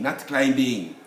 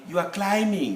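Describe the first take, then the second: First: The b sound is pronounced. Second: The b sound is not pronounced. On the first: The speaker calls it wrong. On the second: The speaker calls it right.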